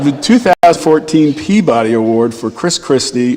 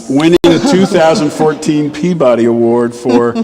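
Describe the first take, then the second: First: Chuckling through the restart; laughing. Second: Said in the usual way. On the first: Real, not acted. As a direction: say it again while still laughing. Restarting after audience laughter. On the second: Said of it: "did someone sis over there?".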